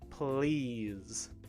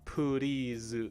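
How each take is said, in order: First: The P and L blend into one cluster. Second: A vowel is inserted between the P and L. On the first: The speaker calls it right. "The P and the L sounds together are one sound" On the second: The speaker calls it wrong. "not please, right? Not poo"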